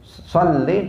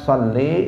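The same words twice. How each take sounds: First: The final vowel is short. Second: The final vowel is drawn out long. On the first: The command is addressed to a male or to God. The speaker calls it right. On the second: The command is addressed to a woman. The speaker calls it wrong.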